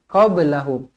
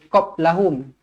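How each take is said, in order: First: The b is released with a slight bounce. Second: The b is stopped flat without a bounce. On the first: The speaker calls it right. "Huruf ba qalqalah sughra dibaca melantun" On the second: The speaker calls it wrong. "jangan baca qablahum"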